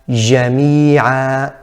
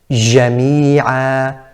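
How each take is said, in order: No difference in how they are said.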